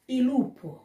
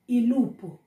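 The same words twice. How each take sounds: The two takes are said the same way.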